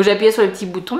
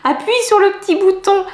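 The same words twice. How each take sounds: First: Said in the usual way. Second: High-pitched voice for someone else's tip; quoted advice. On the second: Retold or imitated. Vlogger relays someone's button tip, high quoting voice. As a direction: lift the pitch sharply to quote an instruction. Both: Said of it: "quelqu'un m'a dit".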